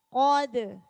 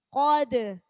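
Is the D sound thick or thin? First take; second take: thin; thin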